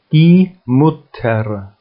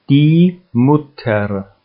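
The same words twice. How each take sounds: The two takes are said the same way.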